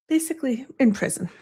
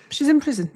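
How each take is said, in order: First: Said in the usual way. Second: "in" pushed up high for emphasis; stress on in. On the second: Real, not acted. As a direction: lean hard on "in" in "She's in prison".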